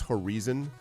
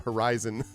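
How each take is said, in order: First: Horizon is said the way the Brazilian presenters said it. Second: Horizon is said with an American pronunciation. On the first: The speaker calls it wrong. "three Brazilian presenters in a row pronouncing horizon as" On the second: The speaker calls it right. "until the fourth speaker American. So the"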